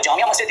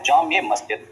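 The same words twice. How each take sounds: First: जामिया मस्जिद with "jamia", ending in "-ya"; incorrect form. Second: जामिया मस्जिद said as "jaame masjid"; correct form. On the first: Teacher quoting the mistaken name, incorrect pronunciation. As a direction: say जामिया मस्जिद as "jaam-ya masjid". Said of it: "ये गलत है". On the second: Teacher giving students the right word, correct pronunciation. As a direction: end the first word of जामिया मस्जिद in "-e", not "-ya". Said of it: "लफ्ज ठीक होता है". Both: Shown as a demonstration.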